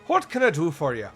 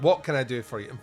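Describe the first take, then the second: First: It is said in a put-on Irish accent. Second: It is said in the speaker's normal accent.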